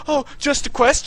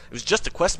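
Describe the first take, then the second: First: High, loud sarcastic parroting; mocking echo. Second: Said in the usual way. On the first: [name] parroting the gamer's excuse, loud and mocking.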